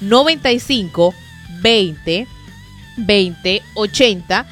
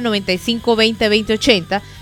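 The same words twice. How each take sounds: First: The number is said more slowly. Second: The number is said at a quicker pace.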